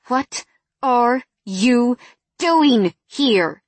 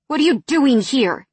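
First: Slow, drawn-out, each word weighted; slow cold anger. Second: Angry question, higher and louder; hissed. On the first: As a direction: spell it out slowly with menace. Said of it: "I narrowed my eyes at him". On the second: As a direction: hiss it at him angrily. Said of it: "I hissed". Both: A narrator's reading.

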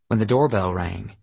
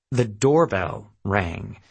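First: Said in the usual way. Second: "doorbell" drawn out, then a gap before "rang"; slow right down and lean on "doorbell"; slow, weighted "The doorbell rang", word by word; slow emphatic repeat. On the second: A narrator's reading. Repeated slowly for dramatic weight.

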